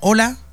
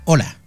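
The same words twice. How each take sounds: First: The voice rises at the end. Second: The voice falls curtly at the end.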